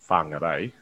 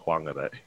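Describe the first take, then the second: First: The opening 'wh' is said with an h sound. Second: The opening 'wh' is said without an h sound.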